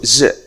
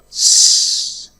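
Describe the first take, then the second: First: Only a short buzzing z sound is said. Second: Only a short hissing s sound is said. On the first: "the other one is is. Oh, sorry, z" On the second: "Is has two weak forms. The first one is s"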